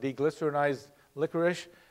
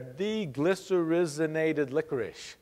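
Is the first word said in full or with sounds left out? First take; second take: sounds left out; in full. First: Some sounds in the first word are dropped. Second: Every sound in the first word is pronounced. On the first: The speaker calls it wrong. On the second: The speaker calls it right.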